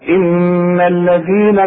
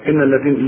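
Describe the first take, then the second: First: The n sound is held long with nasal resonance. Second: The n sound is short, with no nasal hold. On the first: The speaker calls it right. "كل نون في القرآن لازم تغن مدام عليها الشدة" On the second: The speaker calls it wrong. "فما تقولش ان الذين كفروا"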